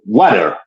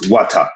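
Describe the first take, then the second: First: It is said with an American accent. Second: It is said with a British accent. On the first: "how we say it in, in Americanized English" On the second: "they will look at you like, oh, no, it's water"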